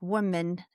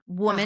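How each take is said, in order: First: The last syllable has a higher, British-style vowel. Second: The last syllable has a relaxed schwa vowel. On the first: "the British version would be more like woman" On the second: "You can either do the schwa in mun"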